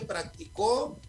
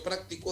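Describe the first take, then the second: First: The stress is on the third syllable. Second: The stress is on the second syllable. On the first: Someone practised it in the past. "para decirla como aguda, es en la última" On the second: I practise it regularly. "pues este es como grave"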